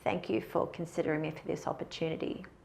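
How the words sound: The voice is low and creaky, with vocal fry. The speaker seems less clear and confident. The speaker calls it wrong. "The first way was with vocal fry"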